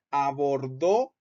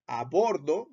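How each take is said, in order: First: "abordó" as one word, stressed on DÓ; stress on final O. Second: "a bordo" slowly, stress on BOR; separate words. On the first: Teacher showing the past tense, final DÓ stressed in "abordó". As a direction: push the stress onto the last syllable of "abordó". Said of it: "lo vamos a acentuar en la O". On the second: Teacher showing the separated spelling, stress on BOR in "a bordo". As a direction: say "a bordo" as two words, stressing BOR, final syllable light. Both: Shown as a demonstration.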